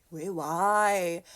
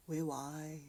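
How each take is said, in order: First: Full-voiced, drawn-out why; insistent, hammed-up questioning; louder bewildered question. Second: Very soft, far-away murmur; mock-lost, hushed questioning; small bewildered question. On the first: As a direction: ask it out loud in mock disbelief. Same question repeated, building up. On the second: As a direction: ask it faintly to yourself. Replays own bewildered question at wall.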